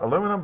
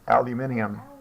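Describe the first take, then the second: First: It is said with four syllables. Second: It is said with five syllables. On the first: This is the American form. "not aluminum" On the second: This is the British and international form. "in Britain and most of the rest of the world, they pronounce it"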